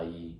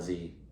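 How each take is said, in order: First: The word begins with a y sound. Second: The word begins with a z sound. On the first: This is the Southern dialect form. "in the South is pronounced Yi" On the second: This is the Northern dialect form. "In the North, that's going to be pronounced like Z"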